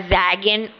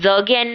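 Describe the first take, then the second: First: The first vowel is an ae sound. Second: The first vowel is a short a. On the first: "या जैगेन नहीं है" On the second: "जगेन नहीं है ये"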